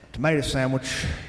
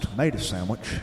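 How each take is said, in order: First: Both words are said in full. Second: The first T of tomato is dropped. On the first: The speaker calls it wrong. "is not pronounced that way" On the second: The speaker calls it right. "The T is always silent"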